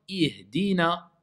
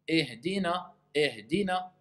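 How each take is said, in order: First: Ihdina with a closed, pure i, a little slower; correct vowel. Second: Ihdina said as ehdina, the i opened to e; wrong vowel. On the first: The teacher models the right i in Ihdina. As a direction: say Ihdina, a tight i and not e. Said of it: "Un i, c'est pas un e". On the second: The teacher shows the wrong e vowel in ihdina. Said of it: "C'est faux ou pas". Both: Shown as a demonstration.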